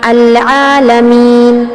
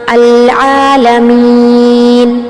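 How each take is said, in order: First: The long vowel is held for two beats. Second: The long vowel is held for four beats. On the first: "सिर्फ दो हरकत के बराबर अब लंबा करते हुए" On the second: "ये हो गया तवस्सुत।"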